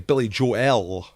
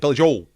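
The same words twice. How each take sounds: First: The final L is clearly and carefully pronounced. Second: The final L is dropped, sounding like 'Joe'. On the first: Listeners can hear exactly which name was said. The speaker calls it right. "darling, the pronunciation" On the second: Listeners cannot tell which name was said. The speaker calls it wrong. "what did he say? Is that [name]?"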